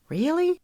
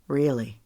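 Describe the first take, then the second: First: "Really?" rising high in doubtful hope; hopeful question. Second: "Really." low and falling, settled; firm answer. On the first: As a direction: ask "Really?" with a big upward lift. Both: A narrator's reading.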